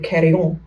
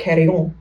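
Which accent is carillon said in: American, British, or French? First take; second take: French; French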